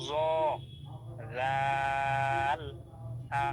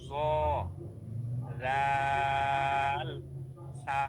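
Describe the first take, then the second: Both takes have the same delivery.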